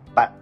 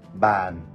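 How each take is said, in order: First: The word is said with a heavy, clipped low tone. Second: The word is said with a low falling tone. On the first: It means you or a friend. "낭성조로 발음을 하게 되면" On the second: It means a desk. "이거를 만약에 내리면"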